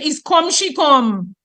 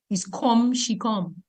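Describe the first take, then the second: First: "Is come she come?" with the first "come" stressed, slow. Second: "Is come she come?" quieter, first "come" stressed. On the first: Teacher showing front focusing, slow stress on "come". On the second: Teacher repeating the focus example softly. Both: Shown as a demonstration. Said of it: "put it on come".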